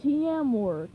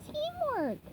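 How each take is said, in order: First: Louder gruff repeat; lightly voiced grumpy plankton. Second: Much higher patient SpongeBob; patient teacher sponge; gentle correction. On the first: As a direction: repeat it clumsily. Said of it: "Plankton said". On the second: Acted. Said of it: "gently corrected him".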